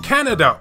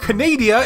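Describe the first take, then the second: First: The word is said as Canada. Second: The word is said as Canadia.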